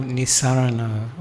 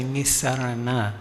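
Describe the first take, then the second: First: Nisarana ending in an O, as "Nisarano"; final O sound. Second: Nisarana ending in an open "ah"; final A sound. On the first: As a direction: say Nisarana with a Thai-style final "o". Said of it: "they use the O". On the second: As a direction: say Nisarana the Sri Lankan way, with a final "a". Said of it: "In Sri Lanka". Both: Shown as a demonstration.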